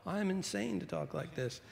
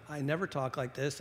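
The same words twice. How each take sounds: First: A hint of Paul, pitched higher; quoting the Apostle Paul. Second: Said in the usual way. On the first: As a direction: lightly voice Paul's confession. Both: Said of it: "I sort of feel like the Apostle Paul".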